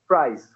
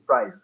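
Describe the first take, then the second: First: The word ends in a hissing s sound. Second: The word ends in a buzzing z sound. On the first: "they change it into a voiceless sound" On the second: "voiced sound"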